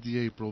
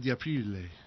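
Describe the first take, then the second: First: The name is said the English way. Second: The name is said the Italian way. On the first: "anglicized it would be" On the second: "in Italiano"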